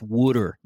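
It is said in a Philadelphia accent. The speaker calls it right. "it's pronounced water"

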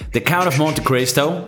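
The title is said with a Midwestern American accent. "That's how it would be said, maybe, like, in the Midwest"

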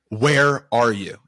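It sounds stern, frustrated and disappointed. He is upset and ready to discipline them. The speaker calls it wrong. "an inflection that was disappointed, frustrated, and ready to discipline"

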